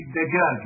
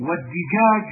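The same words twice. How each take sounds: First: Said in the usual way. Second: والدجاج with an i after the d, "dijaj"; kasra variant. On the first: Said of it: "لغة في الدجاج". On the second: Shown as a demonstration. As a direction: give والدجاج a short i in its first syllable. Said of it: "بالكسر لغة في الدجاج".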